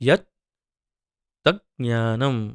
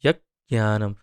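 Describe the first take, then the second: First: The words are kept apart with a break. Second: The words are run together into one. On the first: "ऐसे छोड़ के भी संधि बोल सकते हैं" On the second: "यत् ज्ञानम ऐसे उच्चारण हो जाता है इसका"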